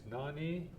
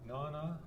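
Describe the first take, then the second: First: The word ends in an 'ee' vowel. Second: The word ends in an 'a' vowel. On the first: "if you're in Masset, it's Nani" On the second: "with Alaskan Ida, is Nana"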